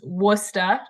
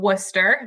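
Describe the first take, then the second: First: The word ends with an 'ah' sound. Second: The word ends with an 'er' sound. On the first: "trading the E R for an A H as the accent often allows" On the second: "that is how you pronounce that word"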